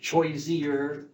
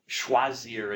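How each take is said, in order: First: It is said with an older medieval French pronunciation. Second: It is said with the modern French pronunciation. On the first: "it's probably how they would have pronounced it" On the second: "in modern French, the pronunciation has changed"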